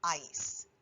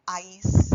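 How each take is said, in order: First: Ais with the ah punched; stressed final syllable. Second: Ais with the stress punched on the ah; accent landing hard on the ah of ais; stressed final syllable. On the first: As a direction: hit the ah of Ais. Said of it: "makes us punch that ah when we say it". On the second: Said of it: "do not forget the accent on ais". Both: Shown as a demonstration.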